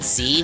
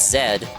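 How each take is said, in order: First: The letter is said as zee. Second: The letter is said as zed. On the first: The speaker calls it wrong. "I said I said Z when reading the dialogue" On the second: The speaker calls it right. "that's how the Brits say it"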